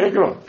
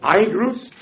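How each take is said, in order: First: The word ends without any S sound. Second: The word ends with an audible S sound. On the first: The speaker calls it right. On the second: The speaker calls it wrong.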